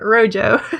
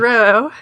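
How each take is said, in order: First: The word is pronounced a non-Spanish way. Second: The word is pronounced the Spanish way. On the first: The speaker calls it wrong. "not Rojo" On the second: The speaker calls it right. "it is supposed to be the Spanish color, so it's pronounced Rojo"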